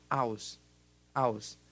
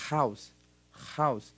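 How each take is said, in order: First: "house" said "aws", without the h; dropped h. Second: "house" with a clear breathy h, a bit louder; aspirated h. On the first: Teacher demos the wrong dropped-h pronunciation of house. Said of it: "por acaso a gente fala". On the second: Teacher demos the correct h sound in house. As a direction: push air on the h of "house". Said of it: "A gente vai falar". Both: Shown as a demonstration.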